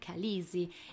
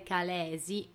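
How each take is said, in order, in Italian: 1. Le vocali centrali si fondono in un unico suono 'ee'. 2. Le due E centrali si pronunciano separatamente. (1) "un anglofono la pronuncerebbe Khaleesi" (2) "teoricamente si dovrebbe pronunciare Khaleesi"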